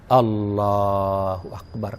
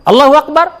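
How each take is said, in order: First: It is drawn out in a pleasant, melodious way. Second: It is said plainly, without melody or feeling. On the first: The prayer is enjoyed and felt. The speaker calls it right. "kan asik" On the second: It is valid but without feeling. The speaker calls it wrong. "ya sah saja. Tapi apa rasanya beda"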